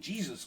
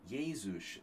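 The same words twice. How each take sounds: First: The name is said with English sounds. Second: The name is said with Hungarian sounds. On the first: "I say Jesus Christ, you know, like my dad did" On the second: "but Hungarians are like Jesus"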